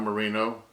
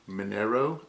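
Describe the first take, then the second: First: The r sound comes before the n sound. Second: The n sound comes before the r sound. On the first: The speaker calls it wrong. "not Merino" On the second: The speaker calls it right. "I guess is how it's pronounced"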